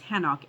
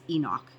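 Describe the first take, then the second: First: The name begins with an H sound. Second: The name begins with a vowel sound. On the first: This is the original Hebrew form of the name. "the Hebrew pronunciation is Hanok" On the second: This is the familiar English form of the name. "who we know as Enoch"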